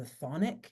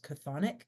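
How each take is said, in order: First: "chthonic" said as THON-ik, silent ch; silent-ch pronunciation. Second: "chthonic" said as kuh-THON-ik; "chthonic" with an audible k at the start; alternative pronunciation. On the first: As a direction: begin "chthonic" straight on the th sound. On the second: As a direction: sound the ch of "chthonic" as a k before th. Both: Shown as a demonstration. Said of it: "that's also pronounced chthonic".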